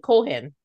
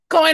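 First: The name is said like Cohen. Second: The name is said like Coyne. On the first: The speaker calls it wrong. "when I was younger, I used to say Cohen" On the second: The speaker calls it right. "Coyne is right"

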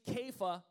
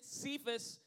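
First: The name starts with a k sound. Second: The name starts with an s sound. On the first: The speaker calls it right. "if you want to be, you know, correct, it's actually Kepha" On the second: The speaker calls it wrong. "we pronounce it Cephas"

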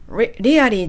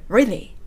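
First: The word is said fully and carefully. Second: The word is said quickly and reduced. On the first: The speaker calls it wrong. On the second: The speaker calls it right.

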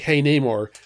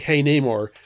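First: The greeting sounds warm and flirty. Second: The greeting sounds warm and flirty.

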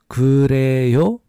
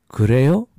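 First: It is said slowly. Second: It is said faster.

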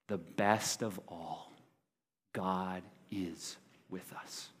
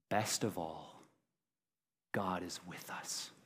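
First: It is said with strong, forceful emphasis. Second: It is said plainly, without extra force.

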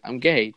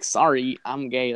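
First: It is said in a normal voice. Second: It is said in a stereotyped put-on voice.

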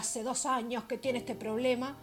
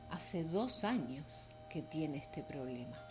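First: It sounds impatient and judging. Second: It sounds soft and sympathetic. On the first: The person is blamed for not solving it. The speaker calls it wrong. "en vez de decir" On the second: The speaker understands how hard it has been. The speaker calls it right. "podemos salir de ahí y decir, uff"

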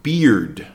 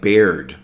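First: The vowel sounds like a long E. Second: The vowel sounds like the one in bear. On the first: The speaker calls it right. "but we say beard, more of an E sound" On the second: The speaker calls it wrong. "It looks like beard because of the word bear"

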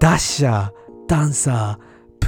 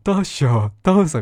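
First: It is said in a rough, bandit-like voice. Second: It is said in a jolly, ho-ho Santa voice.

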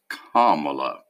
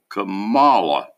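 First: The stress is on the first syllable. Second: The stress is on the second syllable. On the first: The speaker calls it right. "It's not. It's Kamala" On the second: The speaker calls it wrong. "I thought the accent was on the second syllable"

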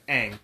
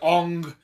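First: The vowel sounds like the one in 'cat'. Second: The vowel sounds like the one in 'long'. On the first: The speaker calls it right. "You said that right" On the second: The speaker calls it wrong. "They were trying to overcompensate. This is Ong"

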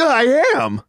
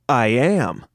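First: It is said very excitedly, with high energy. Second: It is said calmly, without much energy.

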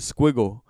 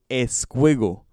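First: The word starts directly with the s sound. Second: An extra eh vowel comes before the word. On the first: "So I would say pass me the squiggle" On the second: "he had to say the eh before the"

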